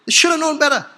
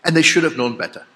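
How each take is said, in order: First: High-pitched, exasperated reproach. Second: Said in the usual way. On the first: Real, not acted. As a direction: throw it out high, at the end of your patience. Same reproach repeated at the climax.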